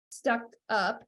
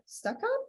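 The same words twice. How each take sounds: First: Said in the usual way. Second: "stuck up?" asked with a much higher, softer rise; puzzled at own word. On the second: Real, not acted. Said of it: "Stuffed up".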